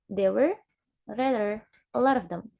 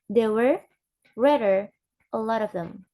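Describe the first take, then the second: No difference in how they are said.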